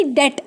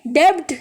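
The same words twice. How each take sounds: First: डेट with a silent "b" and short "e"; correct pronunciation. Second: डेब्ट with the "b" sounded; wrong pronunciation. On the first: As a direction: say डेट, no b sound at all. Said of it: "बी की sound नहीं आएगी, डेट आएगा". (डेट, "ब" की आवाज़ के बिना) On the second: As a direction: show the misreading डेब्ट, b pronounced. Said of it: "नहीं कहेंगे, बी की साउंड नहीं आएगी". (डेब्ट, "ब" बोलते हुए गलत उच्चारण) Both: Shown as a demonstration.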